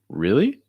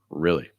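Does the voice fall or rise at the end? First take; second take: rise; fall. First: The pitch rises toward the end. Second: The pitch falls heavily toward the end. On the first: It asks a question. "the first one's a question" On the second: It gives an answer. "Second one's an answer"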